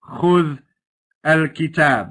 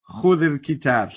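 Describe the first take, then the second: First: The first word ends with no vowel before the next. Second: A short i vowel links the two words smoothly. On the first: The speaker calls it wrong. "So we don't say خذ الكتاب" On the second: The speaker calls it right. "we just make it smooth and we say خذ الكتاب"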